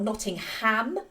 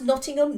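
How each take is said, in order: First: The final syllable 'ham' is stressed. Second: The final syllable 'ham' is unstressed. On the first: The speaker calls it wrong. "Americans emphasise the ham" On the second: The speaker calls it right. "which is pronounced Nottingham"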